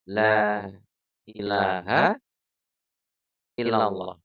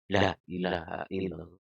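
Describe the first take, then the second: First: The vowel in the first word is drawn out long. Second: The vowel in the first word is cut short. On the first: There is no god but God. The speaker calls it right. "Lane panjang apa pendek?" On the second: Truly there is a god other than God. The speaker calls it wrong. "kesusu, pengen cepet-cepet Qur'ane dadi dipendek"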